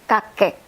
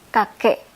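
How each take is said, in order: No difference in how they are said.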